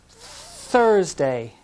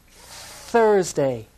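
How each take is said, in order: No difference in how they are said.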